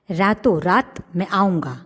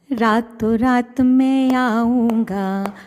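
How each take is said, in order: First: Lightly sung, near speech; half-sing the line; sung, light singsong threat; sung, light sing-song. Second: Sung, higher, slow sing-song; sung, stretch it into a taunting tune; sung threat. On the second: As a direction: mouse singing a threat. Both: Acted. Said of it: "चूहा गाने लगा".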